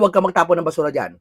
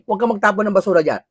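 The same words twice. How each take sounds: First: It is said as a harsh, fierce reprimand. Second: It is said as a mild, soft reprimand. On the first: The warning instills fear. The speaker calls it right. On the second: The warning is ignored. The speaker calls it wrong.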